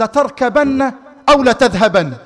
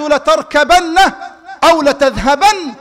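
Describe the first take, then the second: First: Said in the usual way. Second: Higher, louder, laughing firm choice; laughing insistence. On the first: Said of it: "فنظر إلي النبي وقال". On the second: Retold or imitated. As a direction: insist warmly through a laugh. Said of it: "قال".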